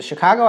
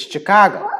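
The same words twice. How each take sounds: First: Said in the usual way. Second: Put-on "Chicago" in a dumpy old-gangster accent, pitched up; "Chicago" with thick local accent; Chicago pronunciation. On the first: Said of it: "The Chicago accent is not Chicago". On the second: Shown as a demonstration. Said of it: "It's Chicago".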